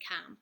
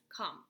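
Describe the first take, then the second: First: Com said "kahm", rhyming with Tom; com with open vowel. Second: Short "uh" in come; come with short vowel. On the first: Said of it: "When the prefix isn't emphasized". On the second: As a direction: come said "kum", rhyming with hum. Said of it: "That's why we say come there". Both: Shown as a demonstration.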